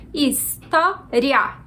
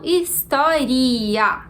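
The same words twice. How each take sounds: First: HISTÓRIA said slowly, last "ria" as one syllable; história with a diphthong. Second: HISTÓRIA drawn out, "ri-a" as two syllables; história with a hiatus. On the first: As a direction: say história as his-tó-ria, gliding the ending. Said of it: "a gente pronuncia história". (história devagar, com "ria" numa sílaba só) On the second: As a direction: split the end of história into his-tó-ri-a, slowly. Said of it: "como se fossem duas sílabas separadas". (história com "ri-a" separado em hiato) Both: Shown as a demonstration.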